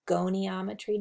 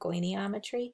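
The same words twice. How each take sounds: First: The word is said without an extra vowel. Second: The word is said with an extra vowel. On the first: The speaker calls it right. "I think it's just goniometry" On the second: The speaker calls it wrong. "not goniometry"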